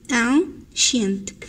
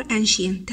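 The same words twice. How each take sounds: First: "ancient" split slowly into two parts; broken into syllables. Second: Said in the usual way. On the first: Shown as a demonstration. Teacher showing pupils two syllables, "ancient" slowly split in two. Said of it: "فيها two syllables". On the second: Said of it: "ancient فيها two syllables".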